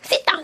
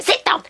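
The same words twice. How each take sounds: First: The words are clipped very short, barely audible. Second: The words are said fully, with audible vowels. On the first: The speaker calls it wrong. "너무 짧게 얘기를 해요. 혹은 거의 안 들리다시피" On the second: The speaker calls it right. "sit down 하면 되는데"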